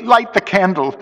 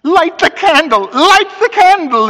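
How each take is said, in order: First: High, shivering plea; teeth chattering. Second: Loud, very high panicked cry; voice breaking. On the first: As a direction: beg for light through chattering teeth. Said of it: "I could hear his teeth chattering". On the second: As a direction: crack like a boy's voice in terror. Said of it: "his voice broke as a boy's does". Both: A narrator's reading.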